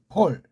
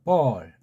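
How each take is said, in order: First: The name begins with an aspirated p consonant. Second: The name begins with an unaspirated, b-like consonant. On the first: This is the original form of the name. The speaker calls it right. "아무튼 폴이야" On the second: This is how English speakers say the name. The speaker calls it wrong. "영어 발음을 보면 이걸 갖다 볼 그러잖아"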